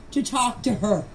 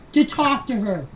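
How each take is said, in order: Both takes have the same delivery.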